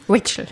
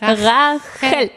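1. Der erste Teil klingt nicht wie 'Rache'. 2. Der erste Teil klingt wie das deutsche 'Rache'. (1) "Nicht Rachel" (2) "wie Rache Engel"

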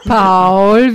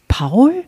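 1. Der Name wird gedehnt und lang gezogen. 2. Der Name wird kurz gesagt, nicht gedehnt.

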